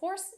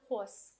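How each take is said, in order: First: The R sound is pronounced clearly. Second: The R sound is dropped. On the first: "you can hear me say every R clearly" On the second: "my R's disappear in the middle or end of words"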